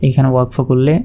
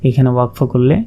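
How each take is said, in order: The two takes are said the same way.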